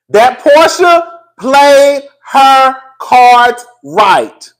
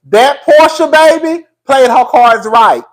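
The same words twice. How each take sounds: First: "That Porsha played her cards right" in slow, loud, separate beats; word-by-word emphasis. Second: Said in the usual way. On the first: Real, not acted. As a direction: punch each of "played her cards right" with pauses between. Repeats the point for emphasis.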